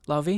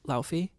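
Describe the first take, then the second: First: The name is said with a v sound. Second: The name is said without a v sound. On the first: The speaker calls it right. "because I know it's a V" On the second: The speaker calls it wrong. "so hard for my brain not to say Lau Laufi"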